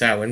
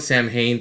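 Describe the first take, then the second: First: It is said differently from its spelling. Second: It is said the way it is spelled. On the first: The speaker calls it right. "but it's pronounced Samhain because it is Celtic" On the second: The speaker calls it wrong. "it's actually it's spelled Samhain"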